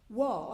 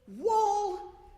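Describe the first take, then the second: First: It is said at normal volume. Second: It is shouted very loudly.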